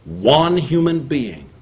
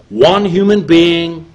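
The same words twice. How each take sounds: First: Said in the usual way. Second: "one human being" slow, higher and louder; emphatic repeat. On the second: Real, not acted. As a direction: lean hard into "human". Repeated phrase, emphatic second take.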